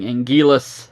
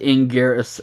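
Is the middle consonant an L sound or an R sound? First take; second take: L sound; R sound. First: The middle consonant is an L sound. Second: The middle consonant is an R sound. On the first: This follows the dubbed version. The speaker calls it wrong. "the dubs were saying Anguillus" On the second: This follows the original Japanese version. The speaker calls it right. "properly pronouncing as Anguirus for the uh, Japanese versions"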